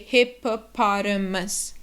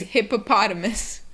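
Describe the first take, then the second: First: It is said slowly, syllable by syllable. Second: It is said quickly as one smooth word. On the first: "just break it down and say" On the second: "And quickly is"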